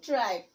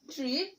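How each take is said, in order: First: ট্রাইপ with an "eye" glide, as in "tripe"; long vowel. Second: ট্রিপ with a short i, as in "trip"; short vowel. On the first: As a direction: say ট্রাইপ with a falling tune. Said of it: "ই যোগে উচ্চারণ". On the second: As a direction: say ট্রিপ with a rising tune. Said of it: "vowel ই ছাড়া উচ্চারণ". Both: Shown as a demonstration.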